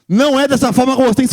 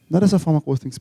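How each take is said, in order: First: It is said loudly in a harsh, scolding tone. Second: It is said softly in a calm, gentle tone. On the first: It sounds like a frightening scolding. The speaker calls it wrong. "Agora quem estava dormindo acordou" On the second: It sounds like caring advice. The speaker calls it right. "Muito melhor, né? ... Menos assustador"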